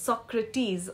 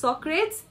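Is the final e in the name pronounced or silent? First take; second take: pronounced; silent. First: The final e is pronounced. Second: The final e is silent. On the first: The speaker calls it right. "it's Socrates" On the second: The speaker calls it wrong. "it's not Socrates"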